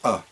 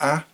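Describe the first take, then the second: First: It is said with a short schwa vowel. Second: It is said with a full vowel. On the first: The speaker calls it right. "it's a. And that uh sound is called a schwa" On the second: The speaker calls it wrong. "It's not a"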